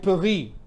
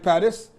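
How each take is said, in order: First: It is said with a French pronunciation. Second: It is said with an English pronunciation. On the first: "In French, you call it Paris" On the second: "In English, you call it Paris"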